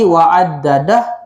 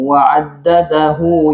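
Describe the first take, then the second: First: The word ends abruptly on a silent h. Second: The final h is followed by a short u vowel. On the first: The reader stops after this word. "Kalau kita berhenti wa'addadah, dia tak jadi mad silah" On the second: The word is joined to the next word. "itu contoh mad silah qasirah kalau kita sambung"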